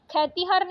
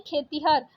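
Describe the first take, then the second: First: खेतिहर said "khai-tihar"; wrong vowel. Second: Said in the usual way. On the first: Shown as a demonstration. Teacher rejecting a spelling, खेतिहर with ai vowel. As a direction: open the e of खेतिहर to ai. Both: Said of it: "खेतिहर नहीं".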